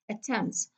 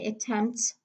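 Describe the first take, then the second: First: The middle t sound is dropped. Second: The middle t sound is clearly pronounced. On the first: The speaker calls it right. "we do not pronounce the T sound" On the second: The speaker calls it wrong. "So I don't say attempts"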